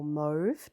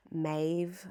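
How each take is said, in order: First: "mauve" with a long OH vowel, like "mohv". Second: "mauve" with a long AY vowel, like "mayv". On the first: Vlogger offering the other way to say a yarn name, "mauve" as "mohv". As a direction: say "mauve" to rhyme with stove. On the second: Vlogger offering one way to say a yarn name, "mauve" as "mayv". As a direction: say "mauve" to rhyme with wave. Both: Shown as a demonstration. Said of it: "depending how you pronounce it".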